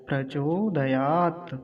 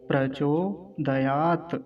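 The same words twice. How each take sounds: Both takes have the same delivery.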